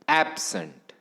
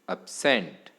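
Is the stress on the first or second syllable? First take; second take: first; second. First: The stress is on the first syllable. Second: The stress is on the second syllable.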